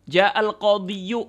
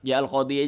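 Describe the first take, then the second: First: The last word ends with an added -yu syllable. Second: The last word ends plainly in -i without -yu. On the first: The speaker calls it wrong. "Oh berat dah, nggak usah" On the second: The speaker calls it right. "Ja'al qadhi aja"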